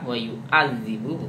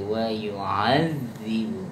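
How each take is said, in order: First: The ain sound is pronounced hard and forced. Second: The ain sound is pronounced soft and gentle. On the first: The speaker calls it wrong. "bukan keras kayak a wa yu'adzibu bukan" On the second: The speaker calls it right. "lebih lunak lagi wa yu'adzibu"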